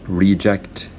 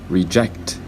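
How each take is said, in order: First: The stress is on the first syllable. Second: The stress is on the second syllable. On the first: It is used as a noun. "reject is a noun" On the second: It is used as a verb. "Reject is a verb"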